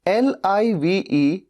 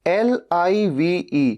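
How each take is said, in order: No difference in how they are said.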